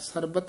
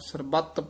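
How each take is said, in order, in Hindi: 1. t ध्वनि छोटी और हल्की होती है। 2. t ध्वनि देर तक और कसकर रोकी जाती है। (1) "ਨਹੀਂ ਕਹਿਣਾ" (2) "ਕਸ ਕੇ ਹੀ ਉਚਾਰਨ ਕਰਨਾ ਹੈ"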